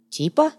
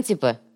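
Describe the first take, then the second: First: "типа?" drawn out, rising high at the end; drawled question. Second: Said in the usual way. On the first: A narrator's reading. The schemer drawls "типа?" back at the gang. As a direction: stretch out "типа?" slyly, lifting it. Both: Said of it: "протянул конец".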